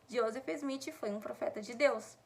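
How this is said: The sentence is spoken aloud, loud enough for everyone. "falar assim numa altura que todo mundo pode me escutar"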